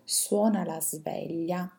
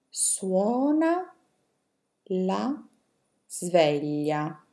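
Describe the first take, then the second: First: The sentence is read at a fast pace. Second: The sentence is read at a slow pace. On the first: "adesso ve le leggo velocemente" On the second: "adesso ve le leggo più lentamente"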